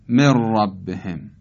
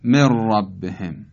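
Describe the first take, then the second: First: The n merges into a doubled r sound. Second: The n merges into a doubled r sound.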